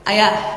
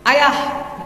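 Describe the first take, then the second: First: It is said a bit higher in pitch. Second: It is said very high and loud.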